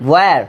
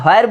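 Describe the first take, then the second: First: "where" begun straight on w, like "wer"; W without h. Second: "where" said as "hoer", h before the w; mistaken h pronunciation. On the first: Teacher shows what we will say, w without h. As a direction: open "where" on a pushed w, no h. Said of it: "এটাকে আমরা বলবো". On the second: Teacher shows what we won't say, mistaken h pronunciation. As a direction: add a breathed h to the front of "where". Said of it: "where বলবো না". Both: Shown as a demonstration.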